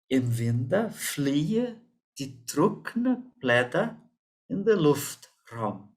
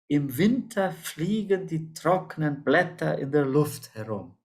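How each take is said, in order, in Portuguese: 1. Fala-se em dialeto Hunsrik. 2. Fala-se em alemão padrão. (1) "assim no meu Hunsrückisch" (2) "nós damos em alemão padrão"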